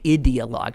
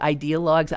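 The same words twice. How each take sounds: First: The first syllable sounds like 'id'. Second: The first syllable sounds like 'eye'. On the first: "I always say ideologues because it sounds more like idiot" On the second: "is it ideologues?"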